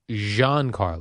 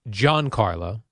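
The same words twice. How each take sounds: First: The name begins with a soft 'zh' sound. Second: The name begins with a hard 'j' sound. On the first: The speaker calls it right. "It's Giancarlo" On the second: The speaker calls it wrong. "It's not Giancarlo"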